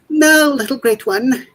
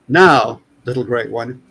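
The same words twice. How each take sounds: First: It is read in the character's put-on voice. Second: It is read without the character's voice. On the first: The speaker calls it right. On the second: The speaker calls it wrong.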